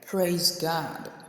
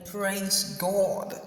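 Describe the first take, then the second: First: The vowel in God is an open American 'ah'. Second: The vowel in God is a rounded British 'o'. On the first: "you hear them say" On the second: "instead of Americans saying"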